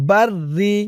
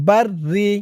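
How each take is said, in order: Both takes have the same delivery.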